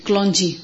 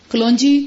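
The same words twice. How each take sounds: First: Said in the usual way. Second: kalonji repeated louder with a rising tune; emphatic repeat. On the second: Shown as a demonstration. Host repeats the seed name to viewers, emphatic and rising. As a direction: punch kalonji louder, lifting at the end.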